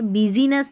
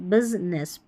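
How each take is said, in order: First: The middle i vowel is clearly pronounced. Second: The middle i vowel is dropped entirely. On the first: The speaker calls it wrong. "यहाँ पर बिजीनेस नहीं बोलेंगे" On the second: The speaker calls it right. "जो आई है ना ये silent है, बिजनेस बोलेंगे"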